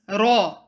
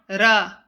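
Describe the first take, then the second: First: The r sound is heavy and deep. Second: The r sound is light and thin. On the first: The speaker calls it right. "A heavy raw is raw" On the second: The speaker calls it wrong. "A light raw sounds like ra"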